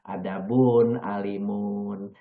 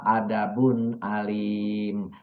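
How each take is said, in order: First: The last word ends with a full -un. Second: The last word ends without its final -un. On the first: The phrase is read with full grammatical endings. "kalau dibaca kita nahu sorof adabun alimun" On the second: The phrase is read in pause form. "Kalau saudara wakofkan membaca adabun alim memang"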